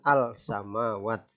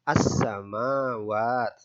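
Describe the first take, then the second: First: The 'l' is pronounced clearly before the 's'. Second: The 'l' is silent and the 's' is doubled. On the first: The speaker calls it wrong. "bukan al-samawat" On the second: The speaker calls it right. "langsung saja as-samawat"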